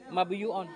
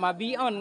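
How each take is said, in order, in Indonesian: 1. Bagian tengahnya punya suku kata 'yu' yang utuh. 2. Bagian tengahnya tidak punya suku kata 'yu'. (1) "Mereka bacanya mabiyu'on langsung" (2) "Kalau orang lain tetap mabi'on kan?"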